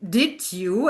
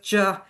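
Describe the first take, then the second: First: Both words are said fully and separately. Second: The words shrink to a single short syllable.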